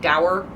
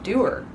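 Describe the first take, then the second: First: The word rhymes with sour. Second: The word rhymes with sewer. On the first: The speaker calls it wrong. "I thought it rhymed with sour" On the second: The speaker calls it right. "it's pronounced doer. It rhymes with sewer"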